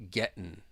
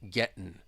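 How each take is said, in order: First: The T is a glottal stop; the ending is -in. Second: The T is a glottal stop; the ending is -in.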